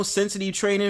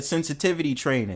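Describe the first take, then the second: First: "sensitive" said as "sensiti", V dropped; mispronounced word. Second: "sensitivity" with every syllable and the V sounded; corrected pronunciation. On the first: Real, not acted. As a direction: slur "sensitive" into "sensiti" without the V. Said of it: "you definitely left the V out the last time". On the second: Shown as a demonstration. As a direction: say "sensitivity" in full, V clearly in. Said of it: "I did. I said sensitivity training".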